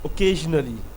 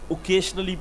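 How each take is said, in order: First: The middle consonant is a 'zh' sound. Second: The middle consonant is a 'sh' sound. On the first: The speaker calls it right. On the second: The speaker calls it wrong.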